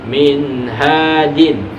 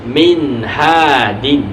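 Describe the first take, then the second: No difference in how they are said.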